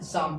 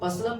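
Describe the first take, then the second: First: Neither the p nor the l is pronounced. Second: Both the p and l sounds are pronounced. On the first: The speaker calls it right. "शाम पढ़ना है" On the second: The speaker calls it wrong. "इसे पसलम भी नहीं पढ़ना है"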